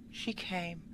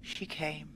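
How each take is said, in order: Both takes have the same delivery.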